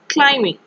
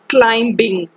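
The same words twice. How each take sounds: First: No B sound is pronounced after the M. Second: A B sound is pronounced after the M. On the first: The speaker calls it right. "We pronounce it climbing" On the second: The speaker calls it wrong. "we not pronounce this word as climbing"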